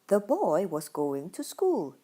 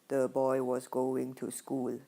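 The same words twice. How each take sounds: First: The pitch moves up and down throughout. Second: The pitch stays flat on one level throughout. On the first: The speaker calls it right. "my up, down, up, down kind of pitch and rhythm" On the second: The speaker calls it wrong. "That is a monotone"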